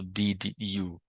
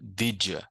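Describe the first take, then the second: First: The two words are said separately, unlinked. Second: The two words are linked into one. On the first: The speaker calls it wrong. "Eu não falo did you. Posso falar? Posso, mas é estranho" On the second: The speaker calls it right. "muito mais correto falar did you"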